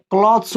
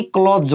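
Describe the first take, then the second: First: क्लॉथ्स ending in a voiceless s. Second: क्लॉथ्स with a voiced z at the end; wrong z ending. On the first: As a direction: say क्लॉथ्स as "klots", crisp s at the end. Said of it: "सौ होगा". (क्लॉथ्स के अंत में स की आवाज़) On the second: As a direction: say क्लॉथ्स as "klodz", the mistaken way. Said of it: "ना कि". (क्लॉथ्स के अंत में ज की आवाज़) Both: Shown as a demonstration.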